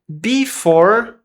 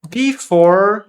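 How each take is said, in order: No difference in how they are said.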